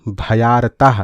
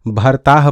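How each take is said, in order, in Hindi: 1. यह bha-yaar-taah ऐसे बोला जाता है, bha के बाद y के साथ। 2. यह bhar-taah ऐसे बोला जाता है, y की आवाज़ के बिना। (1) "भ या र ताह" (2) "कई लोग इसको भरताह पढ़ देते हैं"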